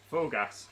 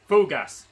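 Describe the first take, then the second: First: Said in the usual way. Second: Loud burst with a laugh; shouted. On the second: Real, not acted. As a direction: bellow it out as you launch. Sprint start on the turbo.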